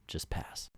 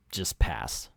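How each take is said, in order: First: Whispered just pass. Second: Said in the usual way. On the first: Real, not acted. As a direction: breathe the words unvoiced. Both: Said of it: "same words said twice".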